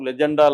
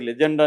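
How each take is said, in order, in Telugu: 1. ఈ పదం చివర అదనంగా 'a' అచ్చు ఉంటుంది. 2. ఈ పదం హల్లు 'd'తో ముగుస్తుంది. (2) "లెజెండా కాదురా అది లెజెండ్"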